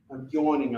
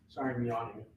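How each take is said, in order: First: Said in the usual way. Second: Yawning. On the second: Real, not acted.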